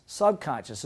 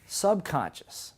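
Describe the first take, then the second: First: Said in the usual way. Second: Subconscious drawn out slowly, syllable by syllable; slow teaching word. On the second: Shown as a demonstration. Teacher introducing a new term, slow. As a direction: stretch subconscious out for the class. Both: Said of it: "It's called the".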